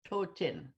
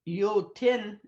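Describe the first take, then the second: First: The word begins with a th sound. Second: The word begins with a y sound. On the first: This is the Moose Cree form. "the T H O with the accent on it" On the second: This is the Plains Cree form. "in the Plains Cree"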